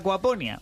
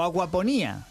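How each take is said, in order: First: The stress falls on the syllable 'po'. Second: The stress falls on the syllable 'ní'. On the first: The speaker calls it right. "sin tilde" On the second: The speaker calls it wrong. "con tilde"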